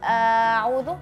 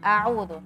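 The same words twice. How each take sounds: First: The word is stretched out and drawn long. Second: The word is said briskly without stretching. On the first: The speaker calls it wrong. "nggak boleh uh, mengaret-ngaret" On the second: The speaker calls it right. "cukup seperti itu"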